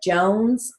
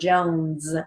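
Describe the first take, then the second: First: The word ends with a hissing S sound. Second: The word ends with a buzzing Z sound. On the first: "if you hear the S" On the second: "or a Z"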